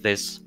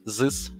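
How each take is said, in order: First: The th sound is said as in English. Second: The th sound is replaced with a Russian-like sound. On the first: The speaker calls it right. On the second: The speaker calls it wrong.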